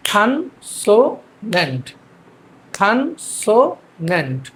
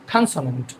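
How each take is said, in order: First: "খানসোনেন্ট" very slow in three spaced beats; syllable by syllable. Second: Said in the usual way. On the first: Shown as a demonstration. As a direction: drill "খানসোনেন্ট" as khan, so, nent. ("খানসোনেন্ট" তিন ভাগে ভেঙে ধীরে) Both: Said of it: "আমরা এটাকে কীভাবে বলবো".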